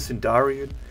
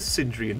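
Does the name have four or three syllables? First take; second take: four; three. First: The name has an extra middle syllable. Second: The name has no extra middle syllable. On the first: The speaker calls it wrong. "Not the Sindarian" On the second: The speaker calls it right. "Just the Sindrian diktat fleet"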